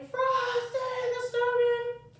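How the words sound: It is said in a loud shouting voice.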